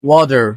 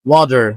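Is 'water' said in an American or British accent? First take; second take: American; American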